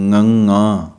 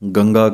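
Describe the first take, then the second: First: The name begins with a nasal ng sound. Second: The name begins with a plain g sound. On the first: The speaker calls it right. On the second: The speaker calls it wrong.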